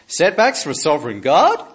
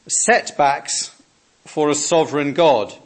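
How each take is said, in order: First: It is said in an Australian accent, rising. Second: It is said plainly, without a questioning rise. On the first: It sounds like a question. "If I said it with an Australian accent, you'd notice the question mark" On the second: It sounds like a statement. "in case you didn't notice"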